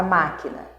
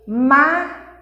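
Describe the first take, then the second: First: Said in the usual way. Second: "máquina" split into three separate beats, long pauses between; sílaba por sílaba. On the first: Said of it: "como eu já disse a palavra máquina". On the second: Shown as a demonstration. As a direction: say "máquina" one puff of air per syllable. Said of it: "eu tenho aqui três jatos de ar". ("máquina" silabada, com pausa entre as sílabas)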